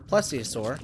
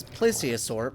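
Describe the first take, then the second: First: Plesiosaur with a short "e", PLESS-ee-uh-sor; alternate pronunciation. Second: Plesiosaur with a long "ay", PLAY-see-uh-sor; alternate pronunciation. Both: Real, not acted. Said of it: "I don't know how you pronounce it".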